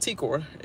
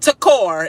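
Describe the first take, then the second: First: The first syllable is a full 'tee' sound. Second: The first syllable has a short reduced vowel. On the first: The speaker calls it right. "T and a core" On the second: The speaker calls it wrong. "not Takor"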